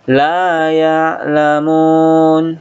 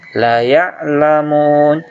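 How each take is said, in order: First: The first vowel is drawn out long. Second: The first vowel is cut short. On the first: They do not know. The speaker calls it right. "inilah harus dibaca panjang" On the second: They truly know. The speaker calls it wrong. "baca pendek"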